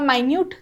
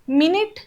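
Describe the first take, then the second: First: The word sounds like my-NEWT. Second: The word sounds like MIN-it.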